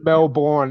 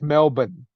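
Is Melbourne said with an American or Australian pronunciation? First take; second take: American; Australian. First: It is said with an American pronunciation. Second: It is said with an Australian pronunciation. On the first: The speaker calls it wrong. "American comedians and American actors... It's not Melbourne" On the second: The speaker calls it right. "it's Melbourne"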